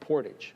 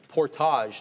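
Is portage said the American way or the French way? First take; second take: American; French. First: It is said with an American English pronunciation. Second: It is said with a French-style pronunciation. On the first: This is how Americans say it. "If you speak to any Americans, though" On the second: This is how Canadians say it. "we have that kind of French side to us"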